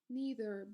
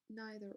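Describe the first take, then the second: First: It is said with an American pronunciation. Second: It is said with a British pronunciation. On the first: "in American accent, they say neither" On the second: "but in British, they say neither"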